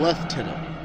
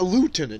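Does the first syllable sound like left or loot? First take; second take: left; loot. First: The first syllable sounds like left. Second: The first syllable sounds like loot. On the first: "why do British people call him Lieutenant?" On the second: "why not Lieutenant?"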